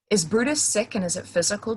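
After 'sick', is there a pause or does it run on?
runs on. It runs on from 'sick' without a break. It is all one continuous thought said at once. "push through that sentence"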